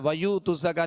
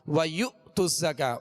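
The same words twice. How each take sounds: First: It is said without a glottal catch after 'yu'. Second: It is said with a glottal catch after 'yu'. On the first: The speaker calls it wrong. "नहीं पढ़ेंगे" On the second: The speaker calls it right. "बल्कि"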